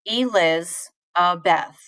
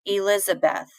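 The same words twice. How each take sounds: First: Slow "Eliz-a-beth", broken into pieces; "Eliz-a-beth" slowly in two beats, stressed on liz and beth; syllable stress. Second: Said in the usual way. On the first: Shown as a demonstration. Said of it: "I put more stress on Liz". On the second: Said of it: "let's think about my name".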